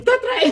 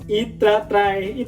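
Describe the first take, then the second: First: Very high chipmunk-like repeat; comic high-pitched replay; squeaky replay. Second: Said in the usual way. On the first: Real, not acted. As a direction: repeat it as a tiny squeaky echo.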